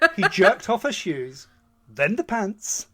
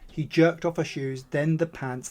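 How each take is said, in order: First: It is read in a put-on British accent. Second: It is read in the plain reading voice.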